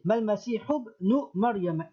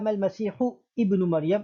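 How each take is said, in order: First: The 'i' of 'ibn' drops, linking the words. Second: The 'i' of 'ibn' is pronounced separately. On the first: The speaker calls it right. "le alif va sauter" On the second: The speaker calls it wrong. "On ne dira pas"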